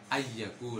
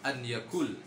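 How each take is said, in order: First: The n merges into the following y sound. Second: The n is pronounced clearly and separately. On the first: The speaker calls it wrong. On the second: The speaker calls it right.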